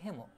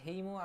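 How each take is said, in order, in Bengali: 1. প্রথম স্বরধ্বনিটি একটি সাধারণ ছোট 'e'। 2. প্রথম স্বরধ্বনিটি 'ay'-এর মতো গ্লাইড করে। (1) "এর উচ্চারণ হচ্ছে হেমো" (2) "আমি এরকম উচ্চারণ করি যাতে বানানটা কারেক্ট হয়"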